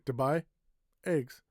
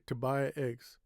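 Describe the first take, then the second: First: There is a pause between buy and eggs. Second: Buy and eggs run together without a pause. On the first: The speaker calls it wrong. "I don't say" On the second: The speaker calls it right. "Buy eggs is together"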